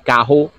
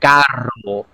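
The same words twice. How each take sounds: First: The r is a breathy sound from the throat. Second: The r is a rolled trill with the tongue. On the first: "we our R's we say that with the back of our throat" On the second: "but in Spanish you would say carro"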